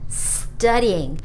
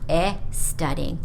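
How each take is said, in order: First: The word starts directly with the s sound. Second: An extra vowel sound comes before the s. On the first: The speaker calls it right. "Please remember to say studying" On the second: The speaker calls it wrong. "not e studying or estudying"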